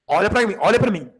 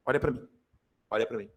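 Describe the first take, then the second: First: Said in the usual way. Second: Much lower and softer, almost hushed. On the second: Shown as a demonstration. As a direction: drop to a hushed plea for attention. Teacher repeats, dropping voice. (em voz baixa e abafada)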